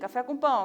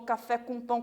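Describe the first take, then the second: First: The phrase is said at a faster pace. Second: The phrase is said at a slow pace. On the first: The train is picking up speed. "depois ele vai acelerando" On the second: The train is just starting to move. "começa com um movimento lento"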